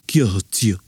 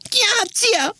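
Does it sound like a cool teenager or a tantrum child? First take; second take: cool teenager; tantrum child. First: It sounds like a deep, too-cool sixteen-year-old. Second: It sounds like a five-year-old girl's tantrum.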